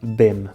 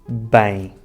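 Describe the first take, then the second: First: It ends with a closed M consonant sound. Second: It ends with a nasal diphthong, no M closure. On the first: The speaker calls it wrong. "acha que o S lê E e o M, M" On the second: The speaker calls it right. "o som nasal que elas fazem é o ditongo em"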